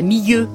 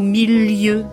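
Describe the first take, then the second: First: The L is blended smoothly into the vowels. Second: The L is clearly separated between the vowels. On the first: This is how others say it. "Pas milieu" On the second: This is how it was said at home. "comme on prononçait chez nous, milieu. En détachant bien le L entre les deux I"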